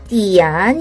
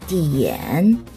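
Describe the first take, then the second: First: The vowel before n sounds like ah. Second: The vowel before n sounds like eh. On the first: The speaker calls it wrong. "성조는 맞게 읽었는데 발음이 틀렸어요" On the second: The speaker calls it right. "요거는 일 번은 디엔이라고 발음합니다"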